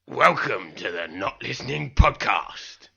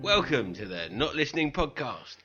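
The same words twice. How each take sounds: First: It is said in an intense, menacing way. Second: It is said in a plain, casual way.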